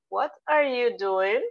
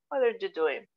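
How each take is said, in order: First: Slow, careful "What are you doing?" with rising end; teacher's slow model question; slow model sentence. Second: Said in the usual way. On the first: Shown as a demonstration. Teacher models the target sentence slowly.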